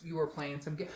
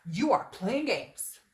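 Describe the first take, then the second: First: Said in the usual way. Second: Mock angry teacher. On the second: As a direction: scold like a put-on angry teacher. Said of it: "an angry teacher".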